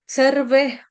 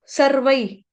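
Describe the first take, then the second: First: सर्वे ending in a plain "ve"; wrong e ending. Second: सर्वै ending in a gliding "vai"; correct ai ending. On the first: Teacher showing the wrong reading, सर्वे ending "-ve". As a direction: end सर्वे on "e", like the word survey. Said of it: "सर्वे नहीं बोलेंगे". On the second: Teacher showing the right reading, सर्वै ending "-vai". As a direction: glide from a to i at the end of सर्वै. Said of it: "सर्वै बोलेंगे". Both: Shown as a demonstration.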